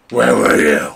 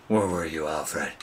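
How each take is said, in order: First: Louder mock Batman bellowing at his butler; hammed-up furious demand; Batman shout. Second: Softer mock Batman asking his butler; a lightly put-on hero, held back; quietly demanding, a hint of Batman. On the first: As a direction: yell it like an angry caped hero. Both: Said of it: "Talking in my Batman voice".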